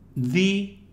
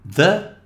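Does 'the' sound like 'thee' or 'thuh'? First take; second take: thee; thuh. First: The vowel is a long 'ee' sound. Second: The vowel is a short, weak 'uh' sound.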